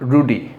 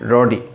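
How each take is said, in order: First: The first vowel sounds like 'oo'. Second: The first vowel sounds like 'uh'. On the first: The speaker calls it wrong. "Not রুডি" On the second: The speaker calls it right. "এটার উচ্চারণটা হচ্ছে রডি"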